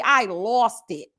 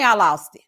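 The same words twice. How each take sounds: First: Slow, emphatic repeat; slowed for effect. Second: Said in the usual way. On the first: Real, not acted. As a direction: draw out "I lost it" very slowly. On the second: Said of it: "Oh, baby, I lost it".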